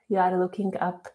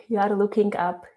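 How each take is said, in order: Both takes have the same delivery.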